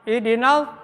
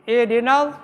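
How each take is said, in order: The two takes are said the same way.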